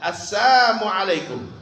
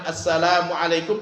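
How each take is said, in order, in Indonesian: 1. Salamnya diucapkan tanpa suku kata 'la'. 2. Salamnya diucapkan dengan suku kata 'la' yang lengkap. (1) "la-nya dihilangkan" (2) "Dia tidak mengatakan assalamualaikum"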